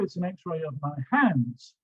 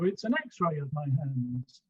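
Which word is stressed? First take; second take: hands; x-ray. First: The stress falls on the word hands. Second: The stress falls on the word x-ray. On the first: It shows hands, not feet. "The stress is on hands" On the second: It is an x-ray, not a picture. "Stress on x-ray"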